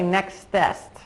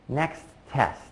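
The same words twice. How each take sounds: First: The two words are run together very fast. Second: A brief half-second pause separates the two words. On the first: The speaker calls it wrong. "I won't say next test. That's a little bit too fast for people to understand" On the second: The speaker calls it right. "just a very brief pause, maybe half a second"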